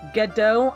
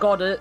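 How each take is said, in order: First: The name ends with a 'doe' sound. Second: The name ends with a 'dard' sound. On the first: This is the official pronunciation. "It's pronounced Gedo" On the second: This is a pronunciation the speaker simply prefers. "I like pronouncing it Goddard"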